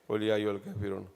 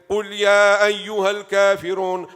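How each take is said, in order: First: It is said softly, without force. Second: It is said loudly, with force.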